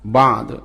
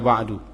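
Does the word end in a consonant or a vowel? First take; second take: consonant; vowel. First: The word ends on the final d consonant. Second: The word ends with a final u vowel. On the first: The speaker calls it right. "Kalau berhenti harus dibaca ba'd" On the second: The speaker calls it wrong. "Jangan baca ba'du"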